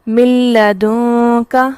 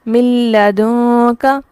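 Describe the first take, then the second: The two takes are said the same way.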